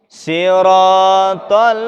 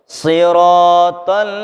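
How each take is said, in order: The two takes are said the same way.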